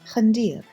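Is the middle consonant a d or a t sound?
d. The middle consonant is a d sound. This is the Eastern dialect form. "Eastern Armenian pronunciation is d for this letter"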